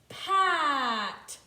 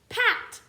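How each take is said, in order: First: The word is said slowly, sounds stretched apart. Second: The word is said quickly, sounds blended together.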